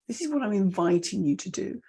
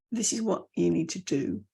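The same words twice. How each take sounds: First: "do" lifting at the end; inviting upturn. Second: Firm, "do" dropping low; downward ending. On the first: Coach inviting listeners, "do" rising. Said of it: "the up". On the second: Coach telling listeners what they need, "do" falling. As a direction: command it, falling on "do". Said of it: "and the down". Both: Shown as a demonstration.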